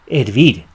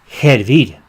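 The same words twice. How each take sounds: First: The word starts with a vowel, no h sound. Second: The word starts with a breathy h sound. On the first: This is how most other Spanish speakers say it. "They pronounce it in the rest of Latin America and in Spain" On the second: This keeps an old sound that survives in New Mexico. "we say hervir, hervir with a J, which is pronounced as a ch"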